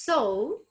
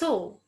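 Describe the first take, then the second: First: The vowel glides from o to u. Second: The vowel is a pure, steady o. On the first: The speaker calls it right. "It's so" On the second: The speaker calls it wrong. "we we say just so"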